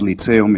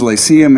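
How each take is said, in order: First: The word is pronounced with Polish sounds. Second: The word is pronounced with English sounds. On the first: The speaker calls it wrong. "I pronounced that the Polish way" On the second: The speaker calls it right. "how is it pronounced in English?"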